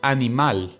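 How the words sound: It is said with a Spanish pronunciation. "In Spanish, that's animal"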